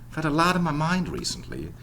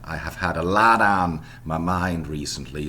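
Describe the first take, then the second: First: The function words are said in weakened form. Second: The function words are said in full form. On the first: The speaker calls it right. "the respective weakened variants" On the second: The speaker calls it wrong. "the full version in American English would be"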